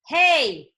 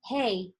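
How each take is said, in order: First: It is said loudly with strong force. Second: It is said softly with little force.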